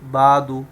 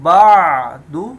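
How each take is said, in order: First: The ain sound is weak and not clearly voiced. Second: The ain sound is pronounced clearly and distinctly. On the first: The speaker calls it wrong. "बाज लोग इसको आइन को क्लियर नहीं करते हैं ... तो ये गलत है" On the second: The speaker calls it right. "आइन को क्लियर करना है"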